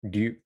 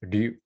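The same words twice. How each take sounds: First: It starts with a quick sound between r and l. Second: The same.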